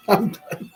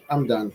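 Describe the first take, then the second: First: Higher, laughing giving up; laughing repeat. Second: Said in the usual way. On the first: Retold or imitated. Laughing at skipping his jog, higher. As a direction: laugh as you quit. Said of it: "repeated with laugh". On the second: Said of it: "quitting jog, repeated".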